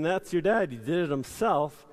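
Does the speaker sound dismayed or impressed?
dismayed. It is said in a dismayed, mocking tone. The work was done badly. "Instead of saying"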